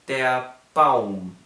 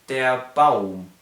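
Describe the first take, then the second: The two takes are said the same way.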